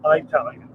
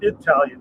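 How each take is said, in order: First: The word begins with a long 'eye' sound. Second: The word begins with a short 'ih' sound. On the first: The speaker calls it wrong. "not Italian" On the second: The speaker calls it right. "it's Italian"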